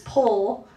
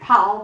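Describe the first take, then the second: First: The name rhymes with 'goal'. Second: The name rhymes with 'pal'. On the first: This is how a cousin's branch in America says it. "As Cindy Wood pronounces it, it's Pole" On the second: This is how the speaker's own family says it. "but we say PAL"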